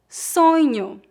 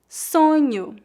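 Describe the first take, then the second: No difference in how they are said.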